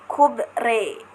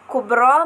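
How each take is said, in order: First: The final vowel is tilted toward e. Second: The final vowel is a plain open a/o.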